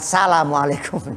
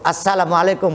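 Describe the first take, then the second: First: It begins directly with 'sa-', without the article. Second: It begins with the joined article sound 'as-'. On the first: The speaker calls it wrong. "bukan salamualaikum" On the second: The speaker calls it right. "Pakai alif lam"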